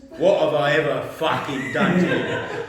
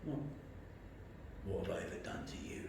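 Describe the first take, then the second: First: Mock furious boss, loud and drawn out; slow, loud roar with the swearing leaned on; angry outburst. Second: Imitated boss, whispered and halting; very soft, with pauses, holding back; quiet menace. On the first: Boss confronting his employee again, loud acted anger. Boss repeats question, raging. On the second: Boss confronting his employee, quietly menacing. Boss's quiet first question.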